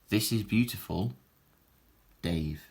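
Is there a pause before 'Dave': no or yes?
yes. There is a short pause before Dave. Someone named Dave is told something is beautiful. The speaker calls it right. "This is a comma for, for cohesion"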